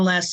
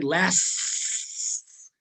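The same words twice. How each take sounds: First: The final S sound is dropped. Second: The final S sound is clearly audible. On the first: "Did anybody actually hear the S?" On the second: "I didn't say lasts"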